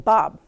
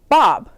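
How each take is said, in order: First: The name is said at normal volume. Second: The name is shouted loudly.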